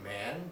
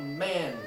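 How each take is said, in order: First: The pitch rises on the word like a question. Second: The word is said as a strong exclamation. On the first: The speaker is addressing someone directly. "It goes up like that" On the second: The speaker is reacting strongly to something. "That is a strong exclamation"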